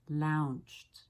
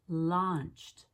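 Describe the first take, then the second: First: The vowel is a long OU glide. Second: The vowel is a short back O. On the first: The speaker calls it wrong. "not launched" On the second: The speaker calls it right. "this is launched"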